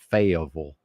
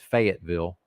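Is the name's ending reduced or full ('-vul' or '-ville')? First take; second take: reduced; full. First: The ending is reduced, like in Louisville. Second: The ending is said fully, as 'ville'. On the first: This is how others now say the name. The speaker calls it wrong. "Why is Fayetteville now Louisville? ... Ridiculous" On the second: This is the proper traditional way to say the name. The speaker calls it right. "I refuse to pronounce it that way. It's Fayetteville"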